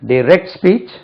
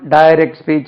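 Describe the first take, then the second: First: The stress is on the second syllable. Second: The stress is on the first syllable. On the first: The speaker calls it right. "அதே மாதிரி" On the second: The speaker calls it wrong. "Generally நம்ம direct speech indirect speech அப்படியே சொல்லி பழகி இருக்கும்"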